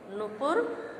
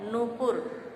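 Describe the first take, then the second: First: नुपुर as "nu-pur", first u short; mispronunciation. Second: नूपुर with long first oo, "noo-pur"; correct pronunciation. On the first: Teacher repeating the wrong form, short u. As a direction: keep the opening of नुपुर short. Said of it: "हमारा अशुद्ध है". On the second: Teacher giving the correct form, long oo. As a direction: stretch the first vowel of नूपुर. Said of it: "शुद्ध रूप है". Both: Shown as a demonstration.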